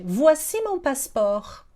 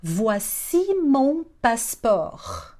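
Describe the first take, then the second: First: Said in the usual way. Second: Very slow, word by word; slow teaching demo. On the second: Shown as a demonstration. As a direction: give each syllable time for learners. Teacher models phrase slowly. (demonstração bem devagar)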